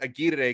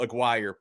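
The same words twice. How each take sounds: First: The name is said with Spanish pronunciation. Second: The name is said with English pronunciation. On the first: "I'd been trying to use my best possible Spanish pronunciation" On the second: "I heard his coach ... introduce him as Raul Aguirre"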